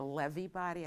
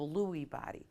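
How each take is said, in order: First: The name is said the original, unanglicized way. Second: The name is said the common anglicized way.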